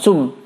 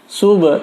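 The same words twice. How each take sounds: First: The final b ends without any bounce. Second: The final b ends with a slight bounce. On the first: The speaker calls it wrong. "bukan sub" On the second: The speaker calls it right. "hukumnya adalah qalqalah sughra"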